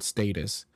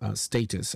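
First: It is said with an American pronunciation. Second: It is said with a British pronunciation. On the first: "I think it's an American thing, when you say status" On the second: "I think it's a more British pronunciation"

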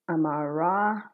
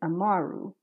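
First: The name ends in an 'ah' vowel. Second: The name ends in an 'oo' vowel. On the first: The speaker calls it wrong. "I've been mispronouncing the name Amaru. I've been saying Amara" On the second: The speaker calls it right. "but it's actually Amaru"

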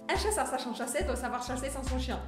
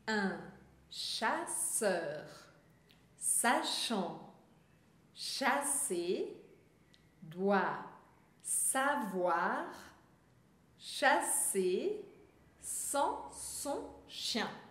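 First: The sentence is spoken very quickly. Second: The sentence is spoken slowly with clear pauses. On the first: "velocidade extra" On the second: "eu vou falar pausadamente"

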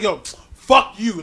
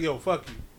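First: It is said in an angry, hostile tone. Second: It is said in a casual, friendly tone.

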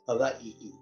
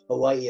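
First: The middle consonant is a v sound. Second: The middle consonant is a w sound.

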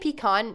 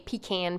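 First: The word is said in a plain, everyday way. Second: The word is said with a Southern-sounding pronunciation. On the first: "I say pecan normally" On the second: "it adds a little southern charm to it"

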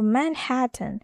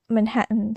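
First: It is said with a clear t sound. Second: It is said the American way, t swallowed.

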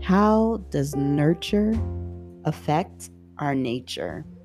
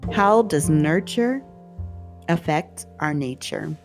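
First: It is said at normal volume. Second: It is said more loudly.

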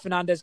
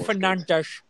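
First: The final S sounds like a plain s. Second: The final S sounds like sh.

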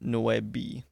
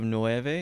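First: It is said with the Chamorro pronunciation. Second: It is said with the standard Spanish pronunciation. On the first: The speaker calls it right. "it's nueve" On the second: The speaker calls it wrong. "instead of nueve"

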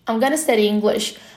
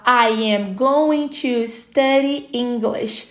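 First: The words are reduced and run together. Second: Every word is said fully, without reductions. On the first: "o nativo falando I'm gonna study English" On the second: "se você só estudou que a gente fala I am going to study"

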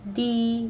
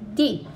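First: The pitch stays high and level. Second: The pitch falls sharply from high.

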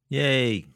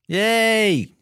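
First: It is said flatly, with little enthusiasm. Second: It is said brightly, with more enthusiasm. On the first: The speaker calls it wrong. "You sound so enthusiastic there" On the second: The speaker calls it right. "That's better"

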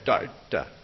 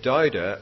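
First: Part of the sound is held back, choke-like. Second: It is said plainly, with no held-back sound. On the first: "you can hold back part of the sound" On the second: "You can say douda"

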